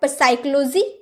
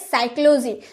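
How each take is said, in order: First: The word starts with a P sound. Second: The word starts with an S sound. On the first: The speaker calls it wrong. "साइक्लोजी नहीं ना" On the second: The speaker calls it right. "क्योंकि पी तो चुप रहता है, हम बोलते हैं"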